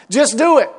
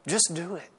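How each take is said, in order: First: Louder, punchy just do it; Just do it said loud and fed up; impatient demand. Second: Just do it said much softer and low; quiet, almost to himself: Just do it; soft echo. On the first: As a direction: bark Just do it at the dithering friend. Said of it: "you want to say". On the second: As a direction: drop the voice to a near-private Just do it. Quiet contrasting echo of command. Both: Retold or imitated.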